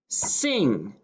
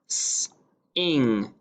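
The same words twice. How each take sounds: First: Said in the usual way. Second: S-ing split into S then ing; sounded out. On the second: Shown as a demonstration. Teacher sounding out S-ing for dictation. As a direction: stretch S-ing into its two sounds.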